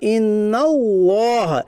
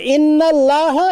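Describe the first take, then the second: First: The L sound is thick and heavy. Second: The L sound is thin and light. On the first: The speaker calls it right. "इस तरीके से पढ़ना, पूर पढ़ना, इसे पूर कहते हैं, यानी मोटा पढ़ना" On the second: The speaker calls it wrong. "ये बारीक है, तजवीद के खिलाफ है, गलत है"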